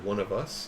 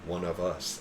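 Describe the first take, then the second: First: The voice rises at the end, like a question. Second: The voice falls at the end, like a statement. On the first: The group is asking whether it is meant. "the first time they ask a question" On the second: The group understands and accepts it. "they changed the inflection in their voice"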